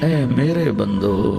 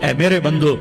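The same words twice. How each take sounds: First: It is said in a warm, loving tone. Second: It is said in a plain, unaffectionate tone. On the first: The speaker calls it right. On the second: The speaker calls it wrong.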